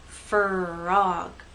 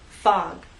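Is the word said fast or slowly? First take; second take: slowly; fast. First: It is said slowly, split into two syllables. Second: It is said fast, the R dropping out. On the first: "if you go too slowly, you'll get something like frog, two syllables" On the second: "too fast, people may not hear are"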